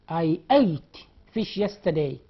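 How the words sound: The word 'ate' sounds like the number 'eight'. "While American people say"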